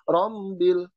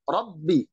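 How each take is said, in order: First: The b sound is nasal, close to an m. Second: The b sound is strong, with no nasality. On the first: The speaker calls it wrong. "Artinya ada unsur hidung dalam pengucapan huruf ba. Ini tidak" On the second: The speaker calls it right. "Dia tekanannya kuat dan tidak ada unsur hidung"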